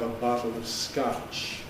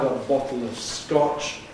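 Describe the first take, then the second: First: The vowel in scotch is unrounded and less back. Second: The vowel in scotch is back and rounded. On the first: "Americans more typically have an unrounded, not quite so back vowel" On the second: "where we have rounding, back rounded vowel"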